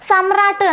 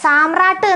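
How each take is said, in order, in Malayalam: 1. ആദ്യത്തെ സ്വരം ഹ്രസ്വമാണ്. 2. ആദ്യത്തെ സ്വരം ദീർഘമാണ്. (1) "സമ്രാട്ട് എന്നാണ് പറയേണ്ടത്" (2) "സാമ്രാട്ട് എന്നല്ല പറയേണ്ടത്"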